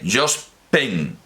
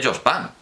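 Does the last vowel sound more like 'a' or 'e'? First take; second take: e; a. First: The last vowel sounds like an 'e'. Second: The last vowel sounds like an 'a'. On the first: "con una E, así, tal cual" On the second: "un parisino... dice Jos pan. Lo dice así"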